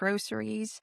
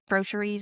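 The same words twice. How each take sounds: First: The middle consonant is an s sound. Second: The middle consonant is a sh sound. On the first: "instead of" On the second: "I say sht instead of st"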